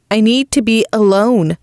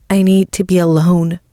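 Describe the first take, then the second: First: "I need to be alone" higher, each word stressed; every word emphasized. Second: Said in the usual way. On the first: A narrator's reading. Isla insisting to Gianna, every word of "I need to be alone" emphasized. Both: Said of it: "I emphasize every word".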